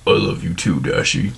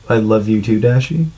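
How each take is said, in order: First: It is read in a funny put-on voice. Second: It is read in a normal voice.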